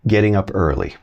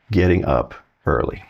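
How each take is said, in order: First: Said in the usual way. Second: "Getting" pressed and set apart from waking up; stress on getting. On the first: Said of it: "like getting up". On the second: Shown as a demonstration. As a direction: lean on "Getting" so it's clearly rising, not waking. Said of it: "Not waking up".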